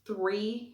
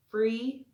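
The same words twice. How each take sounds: First: Said in the usual way. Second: Free, with an F where three has TH. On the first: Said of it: "instead of saying". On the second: Shown as a demonstration. To viewers explaining the landlord's accent, free with an F. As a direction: say free, the three sound turned into an F. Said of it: "instead of saying, like, three".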